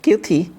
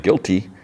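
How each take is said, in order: First: "Guilty." sprung far higher, then falling; playful echo. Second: Said in the usual way. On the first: Retold or imitated. [name] teasingly echoing Dexter's word, "Guilty." sung high. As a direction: bounce "Guilty." up high and let it drop.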